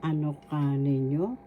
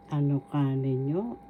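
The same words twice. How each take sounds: The two takes are said the same way.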